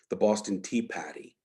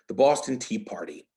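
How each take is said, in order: First: It is said in a Boston accent. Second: It is said in a general American accent.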